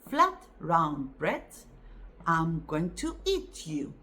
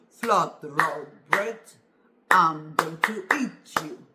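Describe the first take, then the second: First: It is said in a normal voice. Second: It is said in a put-on wolf voice.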